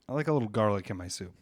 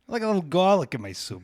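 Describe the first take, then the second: First: It is said in the speaker's normal voice. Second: It is said in a put-on accent.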